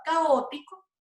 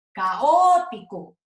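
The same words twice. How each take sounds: First: Said in the usual way. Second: Caótico slowed, Ó stretched and loud; stress on the O. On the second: Shown as a demonstration. Teacher showing the strongest vowel, O drawn out and punched. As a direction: lean hard on the Ó of caótico. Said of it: "la O es la más fuerte".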